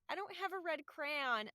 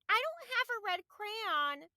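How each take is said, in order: First: It is said in the speaker's normal voice. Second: It is said in a put-on childlike character voice.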